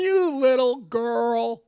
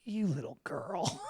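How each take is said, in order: First: Slow, louder, laughing through it; laughing put-down. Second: Low, soft, slow put-down; low scornful sneer. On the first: Host laughs while repeating Baldwin's insult to the photographer. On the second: Host imitates Baldwin sneering quietly at the photographer. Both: Retold or imitated. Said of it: "And he was just like".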